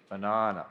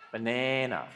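First: It is said with an Australian accent. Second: It is said with an American accent. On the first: The speaker calls it right. "Australian language is much more musical" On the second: The speaker calls it wrong. "That's an American way of saying it"

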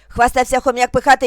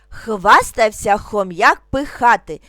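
First: It is spoken at a very fast pace. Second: It is spoken calmly at a slow pace. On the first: "дуже швидко" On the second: "спокійно, не спіша"

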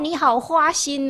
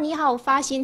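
First: The third word begins with an h sound. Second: The third word begins with an f sound. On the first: It sounds like calling the listener unfaithful. The speaker calls it wrong. "他就说成：" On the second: The listener is praised for devotion. The speaker calls it right. "他说："

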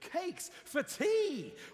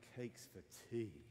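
First: The voice sounds lively and excited. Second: The voice sounds flat and disappointed. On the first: The speaker is pleased about cakes for tea. "Or you could be excited" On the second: The speaker does not want cakes for tea. "Like, you know, why? I don't want cakes for tea"

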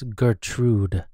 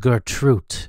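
First: The name is said with a D sound. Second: The name is said with a T sound. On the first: The speaker calls it right. "It's a D, not a T" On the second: The speaker calls it wrong. "it's not spelled as Gertrude"

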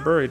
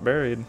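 First: The first vowel sounds like 'burr'. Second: The first vowel sounds like 'berry'. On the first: The speaker calls it right. "Because it's spelled with a UR, so it should be Buried" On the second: The speaker calls it wrong. "not Buried"

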